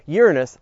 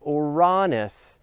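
First: Said in the usual way. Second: Slow, drawn-out "Uranus" as oo-RAH-nus; laboured "Uranus", stress on second syllable RAH; attempted proper pronunciation. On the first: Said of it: "I mean Uranus". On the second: Shown as a demonstration. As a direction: stretch "Uranus", stressing a long AH in the middle. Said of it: "No, I can't do it".

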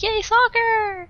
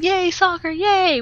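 First: High, slow, sarcastic "Yay, soccer!" with each word drawn out; mocking cheer. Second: High, sarcastic "Yay, soccer, yay!" with both yays thrown up; mock the family's sudden love of soccer; sarcastic cheer. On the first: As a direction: stretch out the family's fake cheer. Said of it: "my whole family is like".

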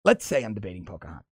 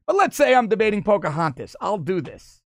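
First: Lower, fast mock Trump read; a hint of Trump, rattled off quickly; imitating Trump. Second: Said in the usual way. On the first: Host retries Trump's line to sound like him, lightly imitating. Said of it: "How does he?". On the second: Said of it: "he probably said it like that".

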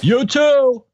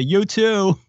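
First: High, loud awkward you too; awkward reply. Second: A little higher, blurted you too; awkward reply. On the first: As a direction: blurt it back too fast. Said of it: "he does the thing". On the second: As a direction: answer on reflex. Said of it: "the person at the airport says". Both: Retold or imitated.

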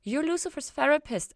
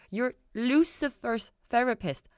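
First: High, loud sudden realization; high startled realization; dawning realization. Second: Slow, high, feeling the words out; slow wondering repeat; slow testing the words. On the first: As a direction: blurt it as it dawns. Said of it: "feeling the words out like they had just occurred to her". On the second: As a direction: turn the phrase over slowly, tasting it. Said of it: "feeling the words out". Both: A narrator's reading.

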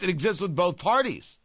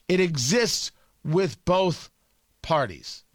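First: Said in the usual way. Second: "It exists with both parties" slowly, with pauses before "both" and "parties"; slow emphatic repeat. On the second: Real, not acted. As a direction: draw out "exists" and "both", then drop on "parties".

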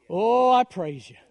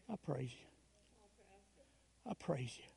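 First: Louder, slower, swelling cry of praise. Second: Much lower and much softer, nearly gone; hushed whispered praise. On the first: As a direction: let it ring out in the empty church. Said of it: "all of a sudden the louder it got". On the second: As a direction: let the words barely leave your lips. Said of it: "I just let it kind of whisper". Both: Retold or imitated.

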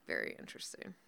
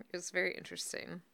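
First: Low whispered aside. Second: Said in the usual way. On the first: Real, not acted. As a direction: whisper it knowingly. Repeated in a whisper.

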